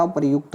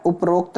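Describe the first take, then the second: First: उपर्युक्त said quickly "upar-yukt"; correct form. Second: उपरोक्त said "up-rokt", with o; wrong form. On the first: Teacher corrects students, उपर्युक्त as "upar-yukt". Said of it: "क्या होता?". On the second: Teacher shows the error, उपरोक्त as "up-rokt". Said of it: "उपरोक्त नहीं होता मेरे भाई". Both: Shown as a demonstration.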